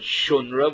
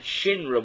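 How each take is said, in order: First: The first vowel is an u sound. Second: The first vowel is an i sound. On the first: One group's traditional pronunciation. "Some said it with shunra, with a vav" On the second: Another group's traditional pronunciation. "and some said it shinra, with a yud"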